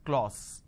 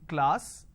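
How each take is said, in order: First: The vowel is a rounded 'o' sound. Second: The vowel is an open 'a' sound. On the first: The speaker calls it wrong. "they end up pronouncing this as class" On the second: The speaker calls it right. "Instead of saying class"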